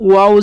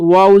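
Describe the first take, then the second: Both takes have the same delivery.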